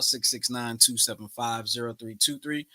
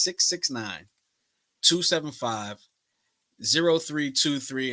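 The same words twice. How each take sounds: First: The number is said at normal, faster speed. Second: The number is said more slowly.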